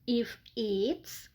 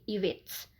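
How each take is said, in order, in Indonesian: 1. Kata-katanya diucapkan terpisah. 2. Kata-katanya disambung dengan lancar.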